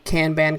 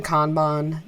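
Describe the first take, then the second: First: Kanban said slowly as KAN-ban, with a as in cat; Kanban, both vowels as in can; Kanban with a flat a. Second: Kanban said as KAHN-bahn, with a broad ah; Kanban, both vowels as in father; Kanban with an ah sound. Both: Shown as a demonstration. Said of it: "as soon as you define it".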